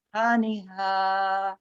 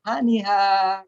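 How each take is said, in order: First: Slow "haniha" with a light breathy h; slow, gentle haniha; soft haniha. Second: "Haniha" with a gentle, smooth h; softly voiced haniha. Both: Shown as a demonstration. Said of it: "lembut ya".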